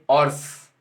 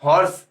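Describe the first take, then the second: First: हॉर्स said as orse, no h; silent h horse. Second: हॉर्स with a clear spoken h at the start; wrong h horse. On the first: Teacher correcting students, h silent. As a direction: drop the h, just orse. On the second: Teacher showing the wrong way, h sounded. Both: Shown as a demonstration. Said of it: "हॉर्स नहीं".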